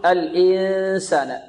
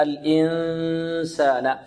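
First: Mistaken الإنسان, held ن pressed through the mouth; غنة فموية خطأً. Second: الإنسان with long nasal hum poised for the س; إخفاء النون. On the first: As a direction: drag out الإنسان with little nasal hum. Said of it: "يضغط على الفم أكثر". (الإنسان بصوت من الفم أكثر من الخيشوم) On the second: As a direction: hold the hidden ن of الإنسان mostly through the nose. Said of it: "ونهيئ ال-، النون للمخرج". (غنة ممدودة في نون الإنسان) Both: Shown as a demonstration.

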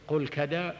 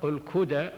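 First: كدى pronounced "kadā", short a after the k; ka-DAA for كدى, fatha on ك; fatha on the kaf. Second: كدى pronounced "kudā", short u after the k; ku-DAA for كدى, damma on ك; damma on the kaf. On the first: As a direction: say كدى with an open a in its first syllable. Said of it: "وادخل بالفتح". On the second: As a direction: say كدى with a rounded u in its first syllable. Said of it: "وضم". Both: Shown as a demonstration.

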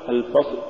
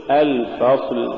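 First: الفصل cut short, final ل swallowed; cut-off lam. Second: Said in the usual way. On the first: Shown as a demonstration. Teacher showing what not to say, lam chopped from الفصل. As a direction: break off الفصل right after ص. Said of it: "ولا تقل". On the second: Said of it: "قل".

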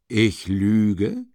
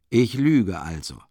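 First: Mock indignation. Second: Mock musing. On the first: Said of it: "sich scheinbar ereifernd". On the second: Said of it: "lustige und spöttische Aussehen".

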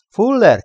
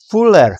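First: Very high-pitched loud call, falling; narrator's high, insistent searching call; more urgent shout. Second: Loud, high call falling away; narrator's raised searching shout; shouted name. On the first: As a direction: shout high for a missing man. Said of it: "kiáltotta még hangosabban". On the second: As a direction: call out for a missing man. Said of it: "kiáltotta Krieg". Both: A narrator's reading.

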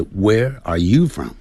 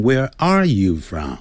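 First: "you" lifted in pitch; right stress lands on "you". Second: "are" stressed instead of "you"; misplaced stress on "are"; wrong stress on are. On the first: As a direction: raise the voice on "you". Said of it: "所以这个重读叫做you那个地方，声音要提高". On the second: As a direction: lean on "are" by mistake. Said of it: "不要念成". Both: Shown as a demonstration.

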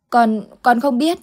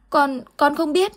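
First: Put-on frightened child. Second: Put-on terrified child. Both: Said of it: "thái độ hết sức hoảng loạn".

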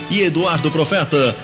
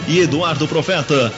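The two takes are said the same way.

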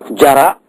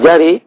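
First: Said in the usual way. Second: جري with the final aa raised to an e-like vowel; imala on the alif. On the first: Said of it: "تقول جري". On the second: Shown as a demonstration. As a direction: end جري on "ee/ay" rather than "aa". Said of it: "إذن فيجوز هذا".

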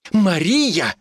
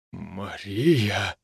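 First: High, indignant cry of the name; indignant outburst. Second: Low, hushed, choked utterance of the name; strangled voice. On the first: Mitka protests to the village healer, indignant. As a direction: flare up in offence, pitch raised. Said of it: "взвился Митька". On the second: Husband finds his wife with another man, strangled. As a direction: squeeze it out softly, pitch dropped. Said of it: "сдавленный, почти неузнаваемый голос своего мужа". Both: A narrator's reading.

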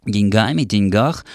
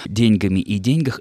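First: "деньгами", "деньгах" stressed on the last syllables, louder; stress on the ending. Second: "деньгами" и "деньгах" stressed on день, louder; stress on the first syllable. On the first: Presenter quotes a journalist's preferred variant, end-stressed деньГАми, деньГАХ. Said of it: "варианты с ударением в конце слова". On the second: Presenter defends the older norm, first-syllable stress in ДЕНЬгами и ДЕНЬгах. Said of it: "ударение должно падать всё-таки на первый слог". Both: Shown as a demonstration.

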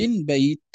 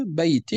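First: "بيت" as "bayt", ending on t; pausal sukun. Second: "بيت" as "baytin"; kasra tanween. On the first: Teacher showing how Arabs stop, pausal sukun. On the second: Teacher contrasting linked and stopped forms, kasra tanween. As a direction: sound the final -in of "بيت". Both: Shown as a demonstration. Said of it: "كذلك بالسكون".

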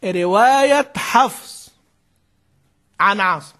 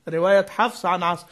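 First: رواية حفص عن عاصم said slowly, stretching رواية with weight; slow dictated phrase. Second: Said in the usual way. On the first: Shown as a demonstration. (إملاء بطيء مع تشديد على رواية) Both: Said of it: "فنقول أعجمي هذه إيه؟".

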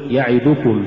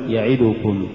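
First: يعدكم with each short vowel complete; full vowels. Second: يعدكم with its short vowels distorted; uneven vowels. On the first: Teacher models correct recitation, يعدكم evenly voweled. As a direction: give each syllable of يعدكم equal room. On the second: Teacher shows crooked reading, يعدكم uneven. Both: Shown as a demonstration. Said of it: "ولا تقل".

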